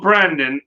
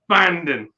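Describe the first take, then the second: First: The name is said with an R sound. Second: The name is said without an R sound. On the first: The speaker calls it wrong. "it's not Brandon" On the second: The speaker calls it right. "No R, no R in it"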